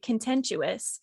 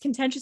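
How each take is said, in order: First: An extra 'you' sound is inserted in the middle. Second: It is said without an extra 'you' sound. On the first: The speaker calls it wrong. "he's been saying it contentious" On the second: The speaker calls it right. "It's contentious. ... there's no you"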